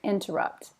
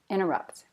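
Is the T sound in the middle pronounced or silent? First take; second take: pronounced; silent. First: The middle T sound is clearly pronounced. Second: The middle T sound is left out. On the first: "But other people, you can hear it" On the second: "Probably I personally don't say the T"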